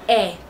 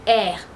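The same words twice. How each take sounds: First: The two vowels merge into one sound. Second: The two vowels merge into one sound.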